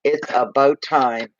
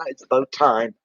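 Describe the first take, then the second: First: "about" stressed and drawn out; slower, deliberate weight on "about"; emphatic repeat. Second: Said in the usual way. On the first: Real, not acted. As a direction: lean slowly on "about".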